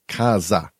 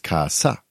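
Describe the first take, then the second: First: The middle consonant is a buzzing z sound. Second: The middle consonant is a hissing s sound. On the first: The speaker calls it wrong. "umbrella isn't kaza with a Z" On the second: The speaker calls it right. "It's kasa with an S"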